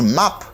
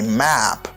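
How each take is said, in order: First: The vowel is open and back, like 'mop'. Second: The vowel is front and flat, like 'cat'. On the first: The word heard is 'mop'. The speaker calls it wrong. "moi parler de mop" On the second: The word heard is 'map', a geographic chart. The speaker calls it right. "moi parler de carte géographique"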